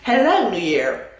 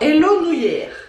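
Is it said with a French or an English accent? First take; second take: English; French. First: It is said with an English accent. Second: It is said with a French accent.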